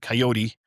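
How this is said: It is said the Albuquerque radio station way.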